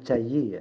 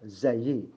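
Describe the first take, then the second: First: The word begins with a j sound. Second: The word begins with a buzzing z sound. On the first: The speaker calls it wrong. "jangan jayyi ya" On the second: The speaker calls it right. "za ya"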